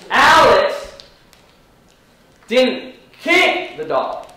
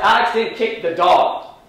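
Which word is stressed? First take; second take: kick; dog. First: The stress falls on the word kick. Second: The stress falls on the word dog. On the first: He did something else to it. "He punched it" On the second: He kicked a different animal. "He kicked the cat"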